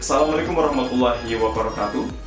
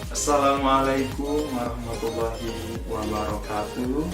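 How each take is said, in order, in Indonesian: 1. Diucapkan dengan kecepatan sedang. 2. Diucapkan sangat lambat. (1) "tidak terlalu cepat dan tidak begitu lambat" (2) "Jangan juga sampai terlalu lambat"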